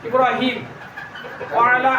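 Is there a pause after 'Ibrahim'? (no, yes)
yes. A stop after Ibrahim, which ends without a vowel. "যদি অক্ষ যদি করি"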